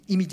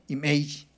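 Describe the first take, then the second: First: It is said with a Korean pronunciation. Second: It is said with an American pronunciation. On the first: "근데 그건 한국, 한국 발음이고" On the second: "여기 미국식 발음이에요"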